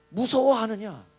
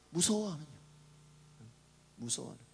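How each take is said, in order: First: Loud, firm mock rebuke; rebuking question. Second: Soft, trailing echo of a question; hushed rebuke. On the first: Preacher voicing Jesus to the fearful disciples, loud rebuke. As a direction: put the question forcefully, as a reproach. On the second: Retold or imitated. Preacher repeating Jesus' question to the disciples, hushed. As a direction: let the reproach sink to a murmur.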